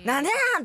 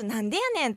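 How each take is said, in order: First: Brash, quick Osaka auntie retort. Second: "なんでやねん" said sweetly in Osaka dialect; cute Osaka retort. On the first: Guest shows hosts how an Osaka auntie retorts, brashly. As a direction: rattle off "なんでなん" like an Osaka auntie. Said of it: "って言ったらおばちゃんですけども". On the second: Guest shows hosts a proper, cute Osaka-ben retort. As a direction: say "なんでやねん" as a cute, girlish tease. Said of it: "可愛らしく言えば". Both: Shown as a demonstration.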